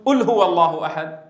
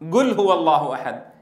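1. الحرف الأول همزة. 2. الحرف الأول جيم صلبة (g). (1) "هي القاف التي نطقها صاحبنا همزة" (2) "كيف ينطق القافة؟ قاف"

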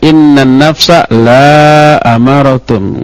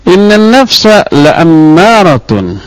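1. Vokal pada 'la' dibaca panjang. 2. Vokal pada 'la' dibaca pendek.

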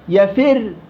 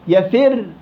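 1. الراء في الآخر مرققة وخفيفة. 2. الراء في الآخر مرققة وخفيفة.

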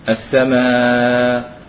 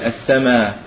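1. يُمَدّ حرف المد مدًّا متوسطًا. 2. يُمَدّ حرف المد مدًّا قصيرًا. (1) "ويوسط" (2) "يقصر"

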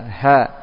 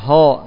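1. Huruf ha dibaca tipis, dengan vokal yang biasa. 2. Huruf ha dibaca tebal, dengan vokal yang lebih gelap. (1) "tapi biasa" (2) "Tidak boleh dibaca tebal"

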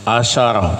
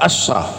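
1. Ada vokal a yang mengikuti bunyi sh. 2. Tidak ada vokal yang mengikuti bunyi sh. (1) "bagi sinnya itu di fathah" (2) "sinnya di sukun"

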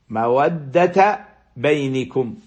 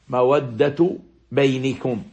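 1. تنتهي الكلمة الأولى بفتحة قصيرة (a). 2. تنتهي الكلمة الأولى بضمة قصيرة (u). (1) "قرأوا مودة بالفتح، مودة بالفتح دون تنوين، وبينكم بالكسر" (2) "مودة بالرفع دون التنوين أيضا، وبينكم بالكسر"

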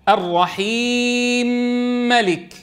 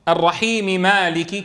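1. الميم ساكنة وتدغم في الميم التي بعدها. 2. الميم تحتفظ بحركتها قبل الكلمة التالية. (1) "نسكن الميم المكسورة" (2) "كما نقرأ نحن لحفص"

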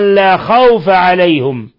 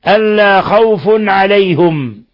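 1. khawf تنتهي بـ -a وفي alayhum الحركة u. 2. khawf تنتهي بـ -un وفي alayhum الحركة u. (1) "بفتح الفاء ألا خوف عليهم وضم الهاء" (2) "برفع الفاء مع التنوين وضم الهاء في عليهم"

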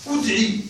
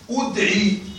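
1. الحركة الأولى بين الكسرة والضمة. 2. الحركة الأولى صوت ضمة. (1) "الوجه الثالث الإشمام" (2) "فلك الضم لكنه قليل"

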